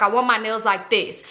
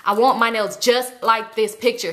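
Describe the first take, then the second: First: Said in the usual way. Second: "just like this picture" slowed and stressed; insistent emphasis. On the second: Retold or imitated. Customer showing the nail tech a picture, stressing "just like this picture". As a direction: lean slowly on "just like this picture". Repeats request more insistently.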